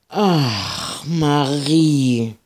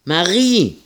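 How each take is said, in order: First: High, drawn-out exasperated sigh of a name; groaning. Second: High, loud call across the farmyard. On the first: Ida groaning at Marie's lasso plan. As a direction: moan her name in weary despair. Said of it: "stöhnte Ida". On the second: Ida calling across the yard for Marie. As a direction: call her name out, falling at the end. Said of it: "rief Ida noch einmal". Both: Acted.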